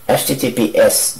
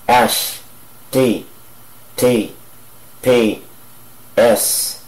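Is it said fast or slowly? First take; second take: fast; slowly. First: It is said fast. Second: It is said slowly.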